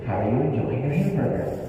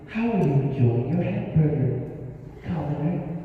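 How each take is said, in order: First: It is said in a plain, everyday tone. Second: It is said in a lilting, lofty Tamaki attitude.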